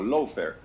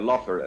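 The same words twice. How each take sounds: First: The first part sounds like English 'low'. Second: The first part sounds like English 'law'. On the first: It comes out meaning a cheap fare. The speaker calls it wrong. "lo pronuncia como lawfare" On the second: It means using the courts against an opponent. The speaker calls it right. "en vez de lawfare"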